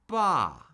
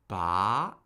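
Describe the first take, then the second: First: The pitch drops sharply from high to low. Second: The pitch starts mid and rises to high. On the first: "the fourth tone falls" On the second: "That's the rising tone"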